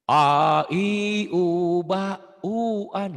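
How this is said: The vowels are clear with the mouth open. The speaker calls it right. "dengan cara baca mulutnya dibuka ya"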